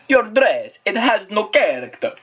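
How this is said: It is spoken with an exaggerated cartoon Italian accent. "That's Mario"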